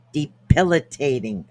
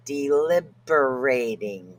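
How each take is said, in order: First: "debilitating" said carefully, each syllable de-bil-i-ta-ting; careful pronunciation. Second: "deliberating" said slowly in place of debilitating, drawn out; mispronounced word. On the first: Vlogger finally getting the word out, careful and clear. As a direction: finally land "debilitating" deliberately. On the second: Vlogger fumbling a hard word, slow mispronunciation. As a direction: stumble slowly through "deliberating", the wrong word. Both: Real, not acted. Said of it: "I can't say the word".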